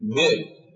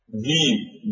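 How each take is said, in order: First: The word has a glottal stop in the middle. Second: The word has no glottal stop in the middle. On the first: This is the Tamim dialect form. "بنو تميم يقولون" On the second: This is the Quraysh dialect form. "قريش تقول"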